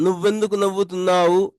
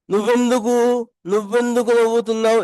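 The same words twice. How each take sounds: First: Said in the usual way. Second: Higher and brisk, words run together; casual quick version. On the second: Shown as a demonstration. Teacher showing learners a casual way to ask. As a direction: toss the question off lightly and quickly. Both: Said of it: "इस तरह भी बोल सकते हैं".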